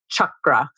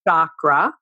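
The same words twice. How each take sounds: First: It begins with a hard ch sound. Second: It begins with a soft sh sound. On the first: The speaker calls it right. "the C sound is always the hard ch" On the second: The speaker calls it wrong. "not oh"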